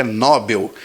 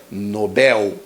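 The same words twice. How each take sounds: First: Nobel stressed on no, NO-bel; wrong pronunciation. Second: Nobel stressed on bel, no-BEL, slowly; correct pronunciation. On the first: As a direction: demo the mistake: nobel with the stress on no. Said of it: "mas não é". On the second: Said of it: "não existe acento nessa palavra". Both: Shown as a demonstration.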